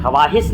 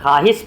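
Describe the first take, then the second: First: ख्वाहिश said as 'kha-waahis'; sounded waaw. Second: ख्वाहिश said as 'khaahis', no w; silent waaw. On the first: Teacher showing the rejected reading, ख्वाहिश as 'kha-waahis'. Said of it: "ख्वाहिश नहीं पढ़ते हैं". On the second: Teacher showing how it is read, ख्वाहिश as 'khaahis'. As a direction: drop the w in ख्वाहिश, 'khaa-his'. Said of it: "ख्वाहिश पढ़ते हैं". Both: Shown as a demonstration.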